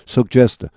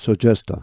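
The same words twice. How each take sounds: First: A hard g is heard before the j. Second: The middle has only one soft j sound. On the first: "또 어떤 사람들은 suggest 두 개로 봅니다. 여기까지 sug, 그 다음에 gest" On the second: "저처럼 suggest, 여기 지지를 하나의 G로 보는 겁니다"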